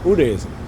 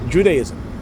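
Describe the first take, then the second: First: The word begins with a Y-like sound. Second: The word begins with a J sound. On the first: The speaker calls it right. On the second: The speaker calls it wrong.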